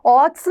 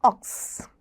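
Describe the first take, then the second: First: ഓക്സ് said as oksi; ഓക്സ് with a tail vowel; wrong ox. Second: ഓക്സ് whispered, ending on a hissed s; unvoiced ഓക്സ്; correct ox. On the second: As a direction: breathe ഓക്സ് out softly. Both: Shown as a demonstration. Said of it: "അല്ല, it is".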